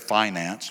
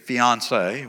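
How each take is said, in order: First: It is said in an East Texas way. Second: It is said the standard way.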